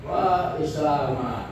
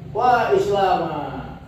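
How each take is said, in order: First: Said in the usual way. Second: Slow, high wail of Wa Islama, stretching wa; high whining lament. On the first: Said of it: "Intonasinya tinggi karena mengadu". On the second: Shown as a demonstration. Teacher demonstrating a lament to students, whining high and slow. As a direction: cry out Wa Islama like a wailing complaint. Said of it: "merengek-rengek".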